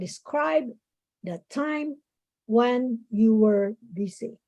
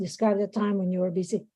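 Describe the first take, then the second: First: Each word is said slowly and separately. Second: The words are run together quickly. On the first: The speaker calls it right. "try to pace out your, you know, your speaking" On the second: The speaker calls it wrong. "instead of saying it fast"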